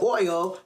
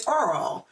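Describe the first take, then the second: First: Said in the usual way. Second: Oil said as Earl, with an added R; dad's R-colored oil. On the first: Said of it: "would say Earl". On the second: Retold or imitated. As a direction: imitate dad turning oil into Earl. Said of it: "put R's where they didn't belong".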